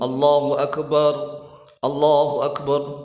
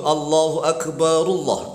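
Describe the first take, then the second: First: A breath separates the two phrases. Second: The phrases run together without a breath. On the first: "Kalau roknya disukun, maka hendaklah bernafas terlebih dahulu" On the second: "Kalau membacanya lanjut"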